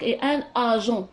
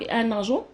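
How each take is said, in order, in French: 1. Le n de un n'est pas lié à agent. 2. Le n de un est lié à agent. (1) "هذا راه كيعطيني بلي انا راني ما متمكناش من اللغه ديالي" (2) "ملي كتولي عندنا لا ليزون في لا ليكتور صافي دير بلي راه التلميذ متمكن"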